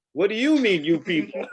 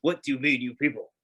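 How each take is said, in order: First: High, louder, laughing indignation; indignant. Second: Said in the usual way. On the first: Retold or imitated. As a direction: throw it back offended. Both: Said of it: "What is with you people".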